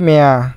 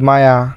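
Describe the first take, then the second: First: The name begins with an 'eh' vowel. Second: The name begins with an 'ah' vowel. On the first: The speaker calls it wrong. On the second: The speaker calls it right.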